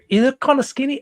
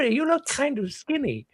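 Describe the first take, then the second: First: It is said in a Cockney-like accent. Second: It is said in an old grandma's voice. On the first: The speaker calls it wrong. "I'm turning into like a Cockney accent" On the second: The speaker calls it right. "back to grandma"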